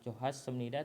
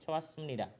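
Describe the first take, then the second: First: The h sound after the first syllable is pronounced. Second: The h sound after the first syllable is dropped. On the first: The speaker calls it wrong. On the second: The speaker calls it right. "Ini hiat akan hilang"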